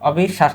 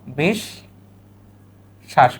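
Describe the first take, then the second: First: Said in the usual way. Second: অবিশ্বাস stretched very slowly, falling at the end; slow teacher model of অবিশ্বাস; slow pronunciation demo. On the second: Shown as a demonstration. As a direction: draw out অবিশ্বাস sound by sound for students. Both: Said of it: "এই যে, তাহলে শব্দটা কি?".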